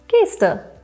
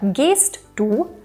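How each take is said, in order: First: The two words are merged into one contracted word. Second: The two words are said separately in full.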